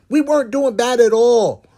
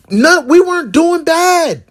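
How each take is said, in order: First: Said in the usual way. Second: High, slow insistence; high emphatic. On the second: Real, not acted. Insisting the family was fine, high and slow. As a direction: insist on it, pitched up.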